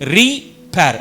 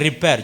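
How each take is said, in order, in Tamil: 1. வார்த்தை தனித்தனி இரண்டு பகுதிகளாகப் பிரித்துச் சொல்லப்படுகிறது. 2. வார்த்தை ஒரே மென்மையான துண்டாகச் சொல்லப்படுகிறது.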